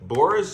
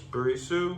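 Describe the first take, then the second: First: The name is said with two syllables. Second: The name is said with three syllables.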